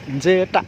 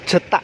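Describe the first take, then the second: First: It is said with a Javanese pronunciation. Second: It is said plainly, following the letters. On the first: "lidah Jawa mengucapkannya Jetak" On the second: "kalau tulisannya J E T A K"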